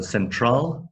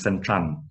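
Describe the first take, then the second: First: The word ends with an L sound. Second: The word ends with an N sound. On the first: The speaker calls it right. "If you have a word with L at the end" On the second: The speaker calls it wrong. "it becomes N"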